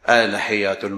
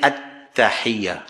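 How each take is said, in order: First: The y sound is short and single. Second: The y sound is held and doubled. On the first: The speaker calls it wrong. "Syaddah ini dia buat lebih kurang" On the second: The speaker calls it right. "Dia tak bunyi at-tahiyyah"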